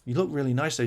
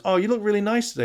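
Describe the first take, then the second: First: Mock lover compliment. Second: Mock husband compliment. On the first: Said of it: "Andrew comes on and goes". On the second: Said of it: "James goes".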